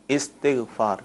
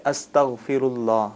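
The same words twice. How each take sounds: First: استغفار opened on a short i, istighfaar; zer under alif. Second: استغفر اللہ read slowly as astaghfirullah, opening on a; recitation form. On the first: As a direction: teach استغفار as is-tigh-faar, i not a. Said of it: "الف کے نیچے زیر ہے". (استغفار الف کی زیر کے ساتھ، سمجھاتے ہوئے) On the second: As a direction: sound out استغفر اللہ with zabar on the alif, astaghfirullah. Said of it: "اس کو اس طرح پڑھیں گے". (استغفر اللہ الف پر زبر کے ساتھ، ٹھہر ٹھہر کر) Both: Shown as a demonstration.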